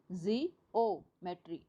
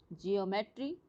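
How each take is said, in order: First: "जी ओ, मेट्री" in separate pieces with pauses; split into parts. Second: Said in the usual way. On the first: Shown as a demonstration. Teacher locating the stressed syllable, word split "जी ओ, मेट्री". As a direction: break "जी ओ, मेट्री" up, setting the ओ apart. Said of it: "तो हम ओ पे stress दे रहे हैं". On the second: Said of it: "ओ पे stress दे रहे हैं".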